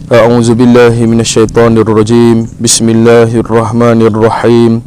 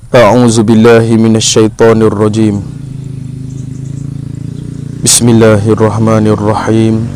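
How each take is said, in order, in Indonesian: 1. Kedua frasa ini dibaca bersambung tanpa jeda. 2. Ada jeda antara kedua frasa ini. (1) "Contoh yang salah" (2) "Contoh yang betulnya"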